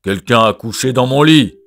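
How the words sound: It is said in Papa Bear's deep gruff voice.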